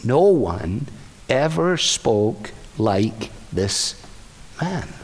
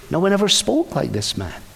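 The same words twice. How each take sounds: First: Lower, slow and soft, in awe; awed officers, half-whispered; slow hushed awe. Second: Plain restatement; plain repeat. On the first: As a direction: let each word land slowly and softly. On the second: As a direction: say it again, plainly. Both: Acted. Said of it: "And they say".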